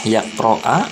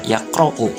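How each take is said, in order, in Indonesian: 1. Kata ini berakhir dengan vokal a. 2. Kata ini berakhir dengan vokal u. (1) "tidak boleh yaqro'a" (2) "ini harus dibaca yaqro'u di dhamma"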